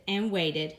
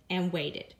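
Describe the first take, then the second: No difference in how they are said.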